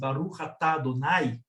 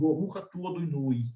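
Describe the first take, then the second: First: The vowels are said as open a sounds. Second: The a vowels shift toward o or u. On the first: "com esses as abertos" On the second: "ele vai tender a falar mais assim"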